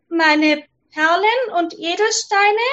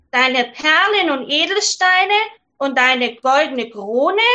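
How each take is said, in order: First: Higher princess voice rising eagerly. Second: Frog. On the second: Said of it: "Der Frosch antwortete". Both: Acted.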